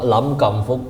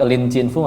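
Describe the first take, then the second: First: The name is read with Cantonese sounds. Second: The name is read with Mandarin sounds. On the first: "Kalau logat Kantonis Hong Kong Lam Kam Fuk" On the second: "Kalau pakai Lin Chin Fu Mandarin"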